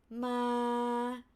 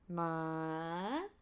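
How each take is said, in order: First: The pitch stays level in the middle. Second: The pitch rises from low to high. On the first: "flat tone" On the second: "rising from low, low to high"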